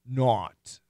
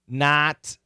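First: The vowel is the AW sound. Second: The vowel is the short O sound. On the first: The speaker calls it wrong. "I'll do a short O and AW" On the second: The speaker calls it right. "I'll do a short O and AW"

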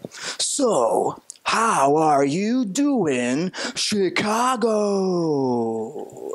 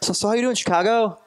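First: It is said slowly and drawn out. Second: It is said quickly and run together.

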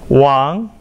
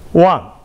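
First: The pitch rises from middle to high. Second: The pitch falls sharply from high to low.

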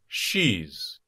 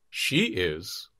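First: It is contracted with a final z sound. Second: It is said as two full words.

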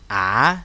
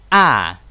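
First: The pitch dips down and then rises. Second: The pitch drops sharply from high to low. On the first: "đọc như âm tiếng Việt dấu hỏi" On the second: "Từ trên cao rớt xuống đấy"

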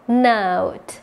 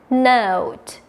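Both takes have the same delivery.

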